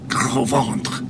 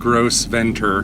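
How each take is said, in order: First: It is said with silent s and a nasal end. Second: It is said with a hard s and final 'ter'. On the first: The speaker calls it right. "which is very close to the French" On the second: The speaker calls it wrong. "we know she mispronounced for sure"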